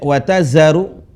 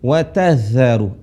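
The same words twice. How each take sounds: First: The middle consonant sounds like a plain z. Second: The middle consonant has the tongue against the teeth. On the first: The speaker calls it wrong. "bukan kayak z" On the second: The speaker calls it right. "tapi watazaru, za"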